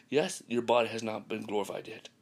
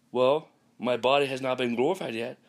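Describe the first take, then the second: First: Said in the usual way. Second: Voicing the doubter, a bit louder; quoting the objector. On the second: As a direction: play the skeptic raising an objection.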